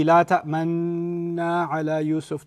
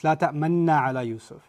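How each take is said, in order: First: "ta'manna" with the noon held long and slow; "La ta'manna ala Yusuf" with a long drawn noon; extended noon. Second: "ta'manna" with the noon kept short; don't hold the nn in "ta'manna"; "La ta'manna ala Yusuf" with a clipped noon. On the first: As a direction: stretch the nn in "ta'manna" well out. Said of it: "The noon is super extended". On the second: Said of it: "you're not allowed to extend it". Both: Shown as a demonstration.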